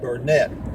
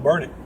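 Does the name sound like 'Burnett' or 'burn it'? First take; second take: Burnett; burn it. First: The name sounds like 'Burnett'. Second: The name sounds like 'burn it'. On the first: This is the usual reading of the spelling. "Normally you would pronounce that Burnett" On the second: This is how the locals say it. "it's called burn it"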